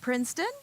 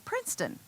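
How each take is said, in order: First: The voice rises at the end of the word. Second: The voice falls at the end of the word. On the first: It sounds like a question rather than a statement. The speaker calls it wrong. "You hear how my voice went up?" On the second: It is a plain statement of fact. The speaker calls it right. "you didn't simply say Princeton, a statement of fact"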